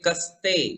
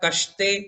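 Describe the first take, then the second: First: The middle consonant is a plain 's' sound. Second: The middle consonant is an 'sh' sound. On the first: The speaker calls it right. "समय वाला आप पढ़ेंगे कस्ते" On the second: The speaker calls it wrong. "कश्ते कर दिया तो वो शक्कर वाला श हो गया"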